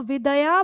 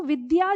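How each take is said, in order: First: विदया with a full, separate द sound; wrong vidaya. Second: विद्या with half द joined straight to य; correct vidya. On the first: Teacher showing the child's misreading. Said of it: "द का उच्चारण पूरा करना शुरू कर देंगे". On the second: Teacher giving the correct form for pupils. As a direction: say विद्या the right way, द and य fused. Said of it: "वो इसको विद्या जो पढ़ा जाना चाहिए". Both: Shown as a demonstration.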